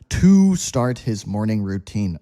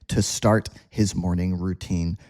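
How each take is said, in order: First: The word 'to' has a full, effortful vowel. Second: The word 'to' has a weak, relaxed vowel. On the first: "takes too much energy" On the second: "So we just say"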